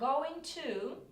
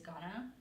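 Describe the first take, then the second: First: Both words are said fully and separately. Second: The words are reduced and run together. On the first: "that's how I say it properly, British like" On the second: "or you just use gonna"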